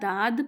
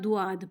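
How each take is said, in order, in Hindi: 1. d के बाद का स्वर सादा लंबा aa है। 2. d के बाद का स्वर u से aa की ओर सरकता है। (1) "ना दाद पढ़ना है" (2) "ना दुआद पढ़ना है, ये दोनों तरीके गलत हैं"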